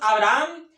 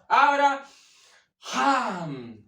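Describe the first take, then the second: First: The H is silent, with no breath. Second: The H is a strong breathy exhalation. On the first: The speaker calls it wrong. "no es simplemente para nosotros" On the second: The speaker calls it right. "Así debería sonar más o menos"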